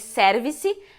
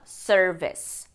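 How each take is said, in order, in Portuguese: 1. É dita com pronúncia à portuguesa. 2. É dita com pronúncia inglesa. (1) "a gente acaba se acostumando a ouvir service" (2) "mas em inglês a gente fala service"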